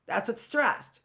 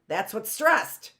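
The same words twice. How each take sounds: The two takes are said the same way.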